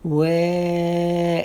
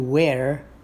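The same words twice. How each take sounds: First: The R is dropped and the vowel lengthened. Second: The final R sound is clearly pronounced. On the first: The speaker calls it right. "we forget about that R and we stay on the eh" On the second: The speaker calls it wrong. "We don't want to do where"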